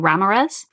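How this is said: The name is said with a lilting accent. A character in the story is speaking. "in people's character voices ... a really fun sort of like lilt on the accent"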